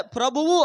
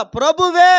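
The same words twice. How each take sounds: First: Said in the usual way. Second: ప్రభువే louder and higher, final ఏ pushed out; stress on ప్రభువే. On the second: Shown as a demonstration. Preacher setting ప్రభువే against ప్రభువు, stressed ఏ. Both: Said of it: "ప్రభువు అనలా".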